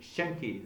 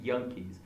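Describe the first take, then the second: First: The word begins with an sh sound. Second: The word begins with a y sound. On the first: "usually they say Shankies" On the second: "they say Yankees"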